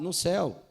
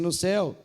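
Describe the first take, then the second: First: It is said at normal, soft volume. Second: It is said loudly, in a booming voice.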